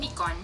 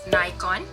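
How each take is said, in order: First: It is said with a Malaysian pronunciation. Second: It is said with an American pronunciation. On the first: "for Malaysian people, I'm sure that we say Nikon" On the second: "American people say this as Nikon"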